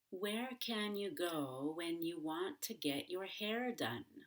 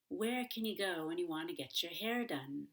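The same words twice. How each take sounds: First: Each word is said fully and separately. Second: Words blend quickly, like Kenya and getcha. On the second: "informally and more quickly"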